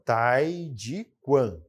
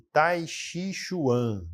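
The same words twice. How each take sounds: First: It is said closer to the Chinese pronunciation. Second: It is said following Portuguese spelling sounds. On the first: This is the word's actual pronunciation. The speaker calls it right. "a pronúncia mesmo dessa palavra é" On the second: This is how people commonly say it from the written form. The speaker calls it wrong. "que o pessoal chama de"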